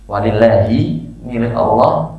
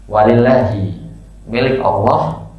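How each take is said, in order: Both takes have the same delivery.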